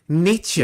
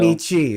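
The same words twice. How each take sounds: First: The name ends with a soft 'eh' sound. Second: The name ends with a long 'ee' sound. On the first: The speaker calls it right. "that's not a hard e on the end of that name" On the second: The speaker calls it wrong. "That's not Nietzsche"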